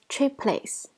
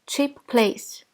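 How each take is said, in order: First: The two p sounds merge into one sound. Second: Each word's final consonant is pronounced separately. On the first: "we pronounce it as cheap place" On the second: "Although cheap place"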